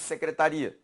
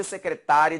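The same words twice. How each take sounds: First: "secretaria" stressed on RI. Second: "secretária" stressed on TÁ. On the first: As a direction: say "secretaria" as se-cre-ta-RI-a. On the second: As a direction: say "secretária" as se-cre-TÁ-ria. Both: Shown as a demonstration. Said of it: "É a sílaba tônica também".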